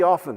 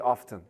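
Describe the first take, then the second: First: The T sound is silent. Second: The T sound is pronounced. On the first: The speaker calls it right. "But it should be often" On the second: The speaker calls it wrong. "I think I do hear a lot of people say often"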